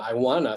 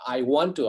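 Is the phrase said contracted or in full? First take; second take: contracted; full. First: The words run together into a shortened form. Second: Each word is said separately and fully. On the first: This is the informal form. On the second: This is the formal form.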